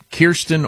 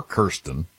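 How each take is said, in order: First: Kirsten said slowly as KEER-stin; Kirsten with the vowel of "ear"; first syllable KEER. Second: Kirsten said slowly as KUR-stin; Kirsten with the vowel of "her"; first syllable KUR. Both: Shown as a demonstration. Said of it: "can be pronounced Kirsten or Kirsten".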